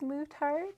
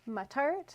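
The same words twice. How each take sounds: First: The first syllable does not sound like 'mutt'. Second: The first syllable sounds like the word 'mutt'. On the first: The speaker calls it wrong. "people often think it's Mutart" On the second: The speaker calls it right. "it is Mutt, like like a dog"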